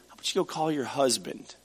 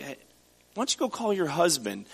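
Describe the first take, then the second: First: Softer, gentle and loving; kind and compassionate. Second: A hint of snark, teasing the question; snarky. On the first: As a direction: ask it tenderly, like a kind invitation. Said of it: "very kind and compassionate and loving". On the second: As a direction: toss it off with a sarcastic edge. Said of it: "he's being kind of snarky with her". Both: Shown as a demonstration.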